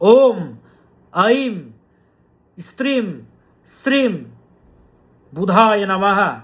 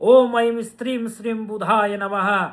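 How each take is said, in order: First: The mantra is said slowly and deliberately. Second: The mantra is said at a normal, quicker pace.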